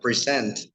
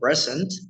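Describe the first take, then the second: First: The stress is on the second syllable. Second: The stress is on the first syllable. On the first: It is the verb, to present something. "the verb uh, present, to present something" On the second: It is the noun, a gift. "if you say present, it's like it's a gift"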